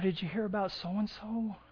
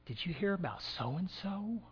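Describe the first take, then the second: First: It is said in a worried, concerned tone. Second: It is said in a gossipy, juicy tone. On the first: Something happened and the speaker is sharing news. "There could be some concern there" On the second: The speaker is eager to spread rumors.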